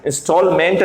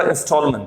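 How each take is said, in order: First: इंस्टॉलमेंट with a full "MENT"; wrong pronunciation. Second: इंस्टॉलमेंट ending in a short "munt"; correct pronunciation. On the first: Teacher showing learners the wrong ending, mispronounced. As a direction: say इंस्टॉलमेंट with an open E at the end. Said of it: "नहीं होगा". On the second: Teacher correcting the ending for learners, correctly pronounced. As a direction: say इंस्टॉलमेंट as in-STALL-m'nt. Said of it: "मेंट को मंथ बोलेंगे". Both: Shown as a demonstration.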